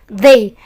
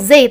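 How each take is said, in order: First: The first sound is a soft th. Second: The first sound is not a soft th. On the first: The speaker calls it right. "tapi they" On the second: The speaker calls it wrong. "Jangan bilang they"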